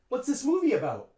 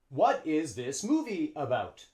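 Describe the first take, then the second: First: It is contracted and reduced with a schwa. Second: Every word is said fully with full vowels. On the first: The speaker calls it right. "A native English speaker would say" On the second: The speaker calls it wrong. "Native English speakers wouldn't say that"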